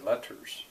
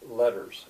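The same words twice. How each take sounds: First: The middle consonant is a clear t. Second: The middle consonant is a soft d-like flap. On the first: This is how British speakers might say it. "British would maybe say letters and pronounce that as a T" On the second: This is how Americans tend to say it. "we tend to make a lot of T's, D's, like butter"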